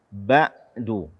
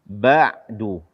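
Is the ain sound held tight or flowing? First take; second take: held; held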